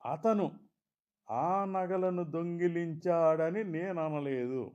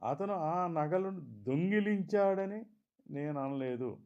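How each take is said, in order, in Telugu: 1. ఒత్తి “అతను” అనే పదంపై పడుతుంది. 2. ఒత్తి “దొంగిలించాడని” అనే పదంపై పడుతుంది. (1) "మరెవరో దొంగిలించారన్నట్లు" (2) "సరదాకో చూసి ఇవ్వడానికో మరెందుకో తీసుకున్నాడన్నట్లు"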